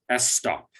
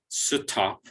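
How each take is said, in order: First: A vowel is inserted before the S. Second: A vowel is inserted between the S and T. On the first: "there is no vowel sound before the S, so it is not S stop" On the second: "there's no vowel sound between the S and the T, so it's not stop"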